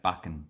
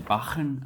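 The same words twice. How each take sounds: First: It is said with an Australian pronunciation. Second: It is said with a German pronunciation. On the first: "but we say Bachen" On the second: "I say Bachen as in German"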